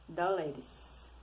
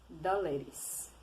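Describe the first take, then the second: The two takes are said the same way.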